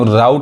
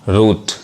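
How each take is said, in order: First: The vowel sounds like 'ow', as in 'out'. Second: The vowel sounds like 'oo', as in 'boot'. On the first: The speaker calls it wrong. "राउट नहीं कहेंगे" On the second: The speaker calls it right. "क्या पढ़ेंगे? रूट।"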